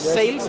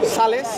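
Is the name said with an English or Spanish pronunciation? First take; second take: English; Spanish. First: The word is said with an English pronunciation. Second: The word is said with a Spanish pronunciation. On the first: "it's pronounced like in English sales" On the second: "it's Sales in Spain"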